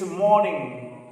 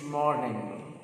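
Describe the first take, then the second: First: "morning" slow, r dropped; British morning. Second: "morning" slow, soft, with a clear r; American morning. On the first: Teacher models British "morning" slowly, no r. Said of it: "In British English". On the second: Teacher models American "morning" slowly, r sounded. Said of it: "In American English". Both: Shown as a demonstration.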